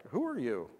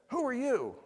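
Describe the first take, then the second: First: Mild imitated fear, voice dropping back down; a little scared. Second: High, sudden startled "Who"; startled question. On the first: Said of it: "scared, like". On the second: Retold or imitated. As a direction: jump up in pitch on "Who". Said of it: "He might have said".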